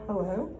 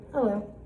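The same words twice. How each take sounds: First: "hello" rising at the end; question. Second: "Hello" as a short falling statement. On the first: Teacher quizzes pupils on punctuation, "hello" as a rising question. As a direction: ask "hello" with a question mark. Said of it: "And then my favorite one". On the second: Teacher shows pupils a period, "Hello" falling as a statement. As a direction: put a period after "Hello". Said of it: "a period, just a statement". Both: Shown as a demonstration.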